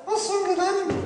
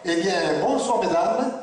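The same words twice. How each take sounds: First: High ventriloquist's puppet voice; puppet repeating. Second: Said in the usual way. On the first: Acted. Puppet copying the ventriloquist's greeting to the ladies, high puppet voice. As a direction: parrot the greeting in a much higher puppet voice. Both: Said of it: "Tu vas répéter après moi".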